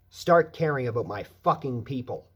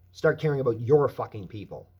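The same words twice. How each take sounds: First: "my" hit hard in a loud demand; loud plea with "my" leaned on; stress on my. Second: "your" hit hard in a loud demand; loud plea with "your" leaned on; stress on your. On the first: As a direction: punch "my" in "Start caring about my fucking people". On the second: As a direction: punch "your" in "Start caring about your fucking people". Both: Real, not acted. Repeated demand, my versus your.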